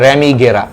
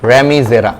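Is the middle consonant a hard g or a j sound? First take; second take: hard g; j. First: The middle consonant is a hard g. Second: The middle consonant is a j sound.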